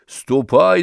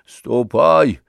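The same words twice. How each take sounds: First: "ступай!" pushed a bit higher with a rising end; mild shout, rising. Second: Mild shout. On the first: Zakhar shoos Anisya off again, "ступай!" with a rising end. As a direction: repeat "ступай!" more insistently, ending up. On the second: Zakhar sends Anisya away, mild gruff shout. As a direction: brush her off with a gruff command. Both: A narrator's reading. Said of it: "закричал он".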